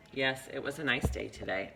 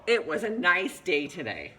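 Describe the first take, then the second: First: Said in the usual way. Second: Higher, louder, drawn-out exclamation; exclamation reading. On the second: Shown as a demonstration. Teacher showing how an ending mark changes meaning, exclamation. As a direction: read it with a big exclamation mark. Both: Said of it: "trying to convey two different meanings".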